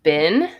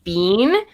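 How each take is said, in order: First: The vowel is a short 'i' sound. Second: The vowel is a long 'ee' sound. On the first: This is the usual way to say it. "instead of "been."" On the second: This is how the other person says it. "you say, like, "bean" instead of "been.""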